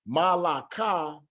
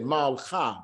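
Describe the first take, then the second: First: A full vowel is spoken between the L and K. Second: No vowel is spoken between the L and K. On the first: The speaker calls it wrong. "It is not going to be Malaka" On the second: The speaker calls it right. "it's instead Malcha"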